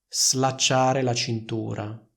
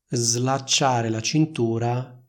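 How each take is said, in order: First: The s before l is voiceless. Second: The s before l is voiced. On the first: The speaker calls it wrong. "Il suono della S è simile a quello della S nella parola sono" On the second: The speaker calls it right. "il suono della S in questo caso è più simile al suono della S intervocalica che troviamo in una parola come rosa"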